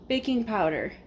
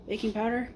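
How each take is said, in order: First: "Baking powder" with a falling tune, as a statement; stating a guess. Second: "Baking powder?" with a rising tune, as a question; "Baking powder?" lifted at the end, unsure; doubting question. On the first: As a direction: say "Baking powder" flatly, pitch dropping at the end. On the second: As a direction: ask "Baking powder?" and let the pitch rise on "powder". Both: Real, not acted.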